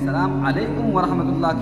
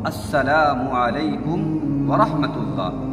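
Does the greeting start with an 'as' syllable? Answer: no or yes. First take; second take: no; yes. First: The greeting starts directly with 'salam', without 'as'. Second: The greeting starts with 'as' before 'salamu'. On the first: The speaker calls it wrong. "और हम गलती क्या करते हैं?" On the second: The speaker calls it right. "सही तलफ़ुज़ ये है"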